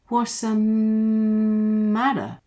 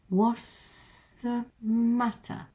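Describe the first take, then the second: First: The t sounds in 'matter' are not clearly pronounced. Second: The t sounds in 'matter' are clearly pronounced.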